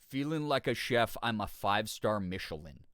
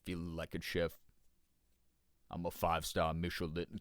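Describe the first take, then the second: First: It is said in the speaker's normal voice. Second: It is said in a deep Felix-like voice.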